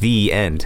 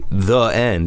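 First: The word 'the' sounds like 'thee'. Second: The word 'the' sounds like 'thuh'. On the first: The speaker calls it right. "instead of the end" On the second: The speaker calls it wrong. "It just doesn't sound so natural"

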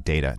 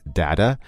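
First: The middle consonant sounds like a clear t. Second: The middle consonant sounds like a d. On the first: This way is more international. "So data is also fine to say in the USA" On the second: This is the more American way to say it. "One is a little more American, data, but it's a little funny because it's like you're saying dada"

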